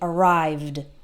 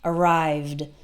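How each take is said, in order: No difference in how they are said.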